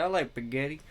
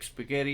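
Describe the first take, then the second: First: "spaghetti" said without its opening S, as "paghetti"; dropped S. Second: Said in the usual way. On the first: Retold or imitated. Mocking T.I. at dinner, "spaghetti" with its first S dropped. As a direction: leave the S off the front of "spaghetti". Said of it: "he will not pronounce the S". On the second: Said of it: "you don't say the S's".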